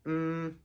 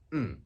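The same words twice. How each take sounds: First: The pitch stays high and level. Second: The pitch falls sharply from high to low. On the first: "the first tone is high and flat" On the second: "the fourth one is a falling tone"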